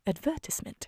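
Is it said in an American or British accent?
British. It is said in a British accent.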